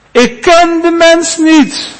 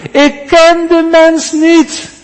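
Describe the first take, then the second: First: Each word set apart, high and slow; slow emphatic denial. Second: High, slow and weighty; slow emphatic denial. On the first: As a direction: swear it slowly and firmly. Peter's second denial, an oath. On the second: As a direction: lean hard on ken, slowly. Peter's third denial, cursing. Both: Acted.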